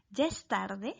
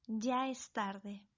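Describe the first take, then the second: First: "¿Ya es tarde?" with the voice rising at the end; question intonation. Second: Said in the usual way. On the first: Shown as a demonstration. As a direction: ask "¿Ya es tarde?" as a real question. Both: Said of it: "Veamos más ejemplos".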